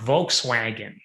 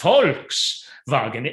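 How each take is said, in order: First: The word begins with a V sound. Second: The word begins with an F sound. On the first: This is the way it is said in the States. The speaker calls it wrong. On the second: This is the European way of saying it. The speaker calls it right. "kind of with an F"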